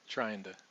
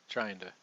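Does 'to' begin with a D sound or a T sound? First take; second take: D; D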